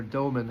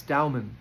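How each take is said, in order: First: "Doman" with first syllable rhyming with go; "Doman" said as DOH-mun; Doh pronunciation. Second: "Dowman" with first syllable rhyming with cow; "Dowman" said as DOW-mun; Dow pronunciation. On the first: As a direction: say "Doman" with a long O. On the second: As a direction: say "Dowman" with an OW vowel. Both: Shown as a demonstration. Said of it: "however you pronounce his name".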